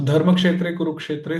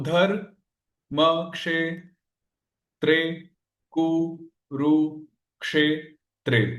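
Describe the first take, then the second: First: Said in the usual way. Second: Each syllable of धर म क्षे त्रे कु रु क्षे त्रे held and set apart. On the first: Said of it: "पहला श्लोक है गीता का". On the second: Shown as a demonstration. Teacher splitting the shloka to count its syllables, syllable by syllable. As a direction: break the verse into separate, slow syllables. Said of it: "कितने हो गए?".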